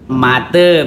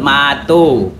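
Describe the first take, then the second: First: The vowels are a then e. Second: The vowels are a then o. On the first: This is the A E dialect form. "yang kami sebut seperti A E misalnya menyebut mate" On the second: This is the A O dialect form. "A O menyebut mato"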